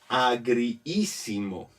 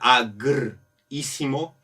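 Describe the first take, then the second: First: The i sound is drawn out and doubled. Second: The i sound is short and single. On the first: The speaker calls it right. "es mejor alargar un poco la palabra" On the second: The speaker calls it wrong. "sonaría un poco fuerte"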